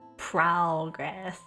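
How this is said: It is said with an American accent. "speak normally, I'd just say like progress"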